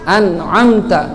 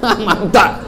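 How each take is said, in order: First: The first syllable ends in an n sound. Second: The first syllable ends in an m sound. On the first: The speaker calls it right. "An, an'amta" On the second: The speaker calls it wrong. "Ada lagi yang baca am-amta"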